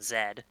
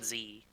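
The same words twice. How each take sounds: First: The letter is said the Canadian way. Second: The letter is said in a non-Canadian way.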